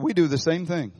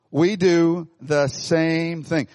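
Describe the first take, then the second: First: Said in the usual way. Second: We do the same thing, each word slowed and pressed; slow, emphatic. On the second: Shown as a demonstration. Preacher to congregation, driving the point home slowly and emphatically. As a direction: drag out every word of We do the same thing for weight.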